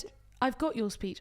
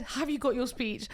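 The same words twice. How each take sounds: First: "got" stressed as a statement, "I've got your speech"; misheard line. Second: "Have you got your speech" said slower, a question with "got" stressed; corrected question. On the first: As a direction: say it as "I've got" with a falling tune. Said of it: "No, I said, 'Have you got your speech?'". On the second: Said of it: "No, I said". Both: Retold or imitated.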